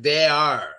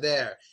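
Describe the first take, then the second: First: It is said fully as two separate syllables. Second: It is said as one short syllable. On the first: The speaker calls it wrong. "the third one is like they are" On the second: The speaker calls it right. "No, it's just there"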